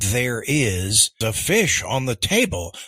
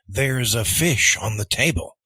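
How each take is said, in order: First: 'There is' is said as two full words. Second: 'There is' is contracted to 'there's'. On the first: "instead of saying" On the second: "they're going to say"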